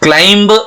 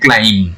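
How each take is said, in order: First: The final b sound is pronounced. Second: The final b sound is silent. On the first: The speaker calls it wrong. "नहीं बोलते हैं" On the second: The speaker calls it right. "हम इसका pronunciation करते हैं"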